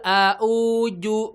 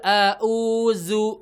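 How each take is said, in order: First: The word ends with a j sound. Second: The word ends with a z sound. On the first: "dua-duanya hamzah dan ujungnya pakai jim" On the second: "Hamzah hamzah zai gitu kan ya. Keliru"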